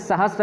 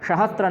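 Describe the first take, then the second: First: It is said with a plain 's' sound. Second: It is said with an 'sh' sound. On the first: The speaker calls it right. "सहस्त्र ही रहे" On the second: The speaker calls it wrong. "ज़्यादा श का प्रयोग"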